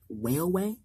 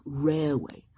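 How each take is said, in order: First: Railway? said with a w sound at the start, like weilway; lisping railway? as weilway; mispronounced. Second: Railway. said with a clear r at the start; firm fix, Railway. with a proper r; corrected. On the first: Gordon stumbling over the word, railway? said weilway. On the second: Gordon correcting himself, Railway. with a clear r. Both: Shown as a demonstration. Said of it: "What are you going on about?".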